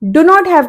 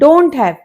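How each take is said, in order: First: Not is said as a full separate word. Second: Not is reduced and joined onto do.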